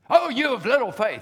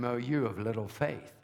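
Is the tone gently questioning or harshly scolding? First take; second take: scolding; questioning. First: The voice sounds harsh and scolding. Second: The voice sounds gentle and questioning. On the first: The speaker is condemning the listeners for weak faith. The speaker calls it wrong. "I've heard it preached this way" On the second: The speaker is asking whether the listeners trust him here. The speaker calls it right. "He didn't say it like that. He said to them"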